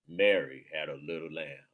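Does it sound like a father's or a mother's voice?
father's. It is said in a father's voice.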